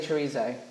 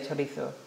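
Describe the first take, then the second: First: It is said in an American-style pronunciation. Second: It is said in a Spanish-style pronunciation. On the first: "So in America, they would say chorizo" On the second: "But I know in Spain you would say chorizo"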